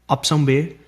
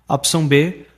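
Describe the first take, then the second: The two takes are said the same way.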